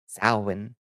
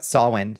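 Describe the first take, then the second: First: The name is said the neo-pagan way. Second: The name is said a different, non-neo-pagan way. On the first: "We would pronounce the word"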